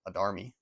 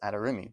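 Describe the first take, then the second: First: The name is said with three syllables. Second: The name is said with four syllables. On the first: The speaker calls it wrong. "a lot of people in the Warlord community pronounce it Adarmi" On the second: The speaker calls it right. "but it's Adarimi"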